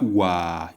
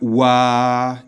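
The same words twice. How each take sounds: First: The word is said on a low chest pitch. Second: The word is said on a level middle pitch. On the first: "It is low. It's the chest voice" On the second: "It's at the middle. It's as if a robot is speaking"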